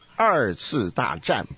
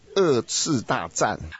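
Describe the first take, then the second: First: The first syllable ends with an r-sound. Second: The first syllable has no r-sound at all. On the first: The speaker calls it right. "这是二次大战" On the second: The speaker calls it wrong. "不是二次大战"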